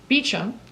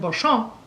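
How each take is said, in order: First: The name is said the English way, 'Beecham'. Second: The name is said the French way, 'Bo-shamp'. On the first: "the correct English pronunciation" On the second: "the correct French pronunciation"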